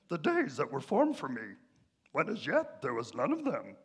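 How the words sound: It is read in a Yoda impression voice.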